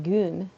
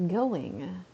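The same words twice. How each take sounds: First: "Goon" as one syllable with long oo; dialect goon. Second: "Going" in two syllables, rising; standard going. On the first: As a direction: clip it to "Goon". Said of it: "my brain wants to be like". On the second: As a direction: carefully say "Going". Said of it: "I don't think that's quite right". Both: Shown as a demonstration.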